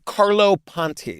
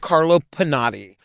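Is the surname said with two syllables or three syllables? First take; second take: two syllables; three syllables. First: The surname is said with two syllables. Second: The surname is said with three syllables. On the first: The speaker calls it right. "You're correct" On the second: The speaker calls it wrong. "Am I saying it wrong?"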